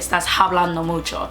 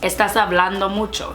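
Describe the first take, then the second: First: The H at the start of hablando is sounded. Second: The H at the start of hablando is silent. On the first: The speaker calls it wrong. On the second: The speaker calls it right.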